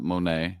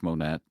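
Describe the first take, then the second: First: The name ends in an open 'nay' sound. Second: The name ends in a 'net' sound. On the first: The speaker calls it wrong. "not Monet" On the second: The speaker calls it right. "It's Monette"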